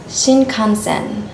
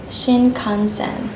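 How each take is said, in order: First: The middle nasal is a clear tongue n sound. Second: The same.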